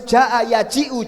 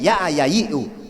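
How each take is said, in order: First: The j sounds are pronounced as j. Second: The j sounds are pronounced as y.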